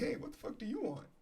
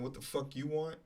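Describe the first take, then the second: First: It is said in a polite tone. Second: It is said in a rude tone.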